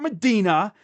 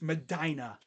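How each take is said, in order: First: It sounds like the Arabian holy city's name. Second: It sounds the way local residents say it. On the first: The name is taken for the holy site. The speaker calls it wrong. "He didn't go play for the religious site in Medina" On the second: The name refers to the local town. The speaker calls it right. "that's how their people say it up there"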